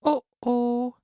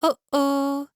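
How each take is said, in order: First: It is said in a medium voice. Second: It is said in a small, high voice.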